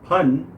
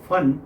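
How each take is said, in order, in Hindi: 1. इसकी शुरुआत महाप्राण p ध्वनि से होती है। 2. इसकी शुरुआत f ध्वनि से होती है। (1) "आप कहना चाह रहे हैं फन" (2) "अगर आपने कह दिया नाग का फन"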